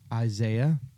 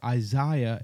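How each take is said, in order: First: The name is said the plain, everyday way. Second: The name is said in a fancy, refined way.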